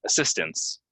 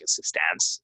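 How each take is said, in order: First: "assistance" said uh-SIS-tince; unstressed ince to end "assistance"; reduced ending. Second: "assistance" with a full a as in dance: uh-sis-TANCE; wrong model, assis-TAANCE; exaggerated A. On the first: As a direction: correct model, uh-SIS-tince. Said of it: "ince at the end". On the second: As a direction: overdo the final A of "assistance". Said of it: "exaggerate this A and say". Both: Shown as a demonstration.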